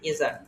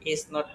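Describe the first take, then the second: First: It is said as one contracted word. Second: It is said as two full words. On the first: "শর্টকাটে" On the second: "ইজ নট কে ইজান"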